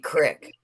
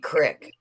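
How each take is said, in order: First: The vowel is a short 'i' sound. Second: The same.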